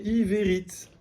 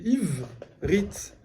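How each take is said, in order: First: Ivérit in three syllables, with a full "é" after the v; avec E prononcé. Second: Ivrit drawn out as "iiv-rit", no vowel after the v; E muet. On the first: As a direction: sound the middle vowel in Ivérit: i-vé-rit. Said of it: "si je lisais avec E". (Ivérit avec un « é » bien prononcé après le v) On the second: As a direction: split Ivrit slowly after the v, leaving the E silent. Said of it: "je fais un E muet". (Ivrit lentement, « iv-rit », sans voyelle après le v) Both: Shown as a demonstration.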